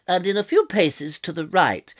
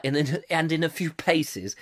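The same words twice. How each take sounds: First: Posh, projected BBC reading; plummy BBC announcer accent. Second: Said in the usual way. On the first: Pretend. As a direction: say it in old-fashioned BBC English. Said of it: "lost in this accent".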